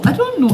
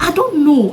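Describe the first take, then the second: First: I don't know, much higher; high squeak. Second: Laughed through the words; laughing. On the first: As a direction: jump way up into a squeaky voice. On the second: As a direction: giggle it out helplessly. Laughing at herself. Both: Real, not acted.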